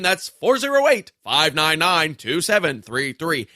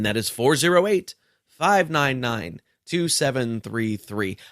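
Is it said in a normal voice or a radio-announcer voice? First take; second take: radio announcer; normal. First: It is said in a put-on radio-announcer voice. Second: It is said in his normal speaking voice.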